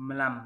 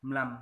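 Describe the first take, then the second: The two takes are said the same way.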